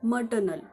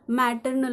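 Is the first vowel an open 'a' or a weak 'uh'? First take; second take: weak uh; open a. First: The first vowel is a short weak 'uh'. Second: The first vowel is an open 'a' sound. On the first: This is the true pronunciation. The speaker calls it right. "परंतु त्याचा खरा उच्चार मटर्नल असा आहे" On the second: This is how people commonly say it. The speaker calls it wrong. "आपण बोलताना जेव्हा उच्चार करतो त्यावेळी आपण मॅटर्नल असं बोलतो"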